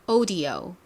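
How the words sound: British accent, first vowel a rounded 'o'. "영국식부터 갈게요. O로 시작하죠"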